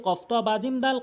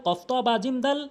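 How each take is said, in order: No difference in how they are said.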